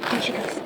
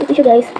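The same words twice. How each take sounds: First: Breathy whispered aside, much softer. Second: Said in the usual way. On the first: Shown as a demonstration. Showing the viewers her blush, whispered. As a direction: hush it like a secret. Repeated hushed.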